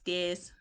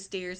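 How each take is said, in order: First: The word is said in a Boston accent. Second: The word is said in a Texas accent. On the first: "he has a Boston accent" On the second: "instead of stairs"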